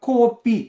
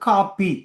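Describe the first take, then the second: First: The first vowel is a long, high o sound. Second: The first vowel is a long, flat a sound. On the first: This is how Sri Lankan Tamils say it. "அதை நல்லா மேல கொண்டு போய் கோ என்று சொல்லுவோம்" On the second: This is how Tamil Nadu Tamils say it. "அதை நல்லா கிடையாக கொண்டு காப்பி"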